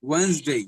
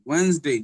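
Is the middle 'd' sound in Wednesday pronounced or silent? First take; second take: silent; silent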